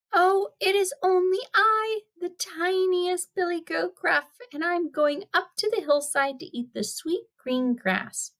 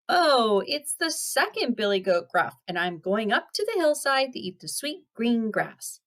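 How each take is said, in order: First: Very high little goat voice; small, small voice. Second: Lightly voiced middle-sized goat; a little raised, less tiny goat voice; not-so-small goat voice. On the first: Acted. Youngest billy goat answering the troll, in a small high voice. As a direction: squeak it high like the tiniest goat. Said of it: "in a small, small voice". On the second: Second goat answering the troll, in a mildly small voice. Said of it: "his voice was not so small".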